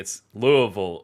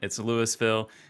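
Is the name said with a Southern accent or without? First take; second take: Southern; without. First: The name is said with a Southern accent. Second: The name is said without a Southern accent.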